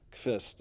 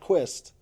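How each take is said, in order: First: The name begins with a 'kv' sound. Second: The name begins with a 'kw' sound. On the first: The speaker calls it right. "Kvist. A lot of people get confused" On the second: The speaker calls it wrong. "not Quist"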